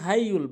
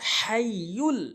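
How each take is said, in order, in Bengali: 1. h টি হালকা, সাধারণ একটি h ধ্বনি। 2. h টি গলার গভীর থেকে আসা একটি গভীর h। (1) "আমরা ছোট হা এনে উচ্চারণ করি" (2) "হলকের মাঝখান থেকে উচ্চারণ করতে হবে"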